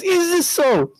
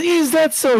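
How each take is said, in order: First: Even higher, defiant question as the turban hits the floor; defiant challenge. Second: High, sharp indignant question; indignant challenge. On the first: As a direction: throw it down and demand it. Shaykh throws the imama down. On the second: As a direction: rise up in offended disbelief. Shaykh reacts, throws off his turban. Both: Retold or imitated.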